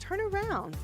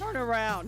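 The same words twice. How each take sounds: First: It is said in a calm, gentle tone. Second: It is said in a harsh, irritated tone. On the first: The device gives a neutral instruction. "she don't make me as mad" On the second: The device seems to be scolding the driver. "It's the tone he uses"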